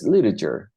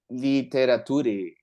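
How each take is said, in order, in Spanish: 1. Los sonidos del medio se suavizan y se unen. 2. Cada letra se pronuncia completa, como se escribe. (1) "Es literature" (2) "Muchos la pronunciarían así"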